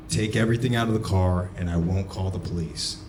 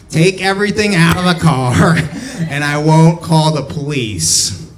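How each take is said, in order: First: Said in the usual way. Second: High, loud mocking nerd impression; exaggerated nerd, pitched way up and loud. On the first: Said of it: "so he sounded". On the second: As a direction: do the manager as a squawking nerd. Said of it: "he was a nerd, so he sounded".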